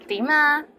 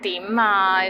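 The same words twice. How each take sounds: First: It is said in a friendly tone. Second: It is said in an impatient tone. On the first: How are you? The speaker calls it right. "So say it with a nice voice" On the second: What do you want now? The speaker calls it wrong. "with like without patience"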